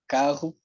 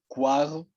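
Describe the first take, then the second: First: The vowel follows the consonant with no glide. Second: A short 'u' glide precedes the vowel.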